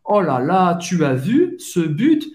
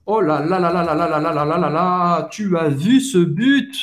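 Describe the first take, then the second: First: Excited fan, rising on "but". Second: Long rattled string of "là là là", rising at the end; carried away by a great goal, piling up the "là"; very excited. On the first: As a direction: exclaim over a great goal. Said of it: "você mais se empolga". (empolgado, como torcedor) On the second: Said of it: "mais você tá empolgado". (empolgadíssimo, esticando o "là là là") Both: Shown as a demonstration.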